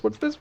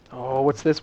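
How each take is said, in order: First: Much higher, curious squeak; squeaky high question. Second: Said in the usual way. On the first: Real, not acted. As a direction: pitch way up in curiosity. Second repeat rises far higher.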